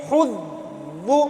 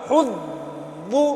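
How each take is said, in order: Both takes have the same delivery.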